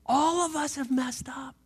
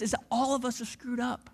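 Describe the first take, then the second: First: Breathy whisper, no voice at all. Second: Said in the usual way. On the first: Shown as a demonstration. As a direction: let the words fall to a bare whisper. Preacher repeats line, second whispered.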